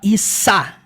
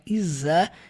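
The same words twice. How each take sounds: First: The consonant is a hissed s sound. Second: The consonant is a buzzed z sound. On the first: The speaker calls it wrong. "Você não fala is com som de S" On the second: The speaker calls it right. "é som de Z. É leve"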